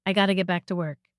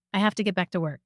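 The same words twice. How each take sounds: First: Said in the usual way. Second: Careful, full form of every word. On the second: Shown as a demonstration. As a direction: say it carefully, nothing run together.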